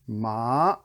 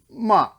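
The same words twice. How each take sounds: First: The pitch rises upward. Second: The pitch falls sharply from high. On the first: "the bike ramp" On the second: "the chop"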